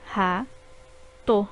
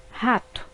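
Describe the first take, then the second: First: Ra-to said as two separate beats; syllables split apart. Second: Said in the usual way. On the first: Shown as a demonstration. Teacher dividing ra-to for pupils, syllable by syllable. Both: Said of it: "formadas por duas sílabas".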